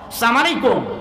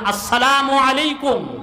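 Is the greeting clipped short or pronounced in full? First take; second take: clipped; full. First: The greeting is clipped short and rushed. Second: The greeting is pronounced fully and clearly. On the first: The speaker calls it wrong. "যত ভদ্র সালাম তত short" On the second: The speaker calls it right. "এইভাবে সালাম দিবেন"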